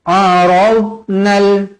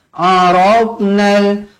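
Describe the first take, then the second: The two takes are said the same way.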